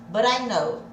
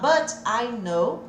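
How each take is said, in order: First: The t in 'but' sounds like a quick r. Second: The t in 'but' is a clear t. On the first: "Olha o som do R de novo" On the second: "ao invés de eu falar"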